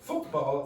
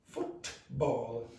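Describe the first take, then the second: First: The middle t is replaced by a glottal stop. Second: The t in the middle is clearly pronounced. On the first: The speaker calls it right. "You go football" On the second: The speaker calls it wrong. "Nobody says football"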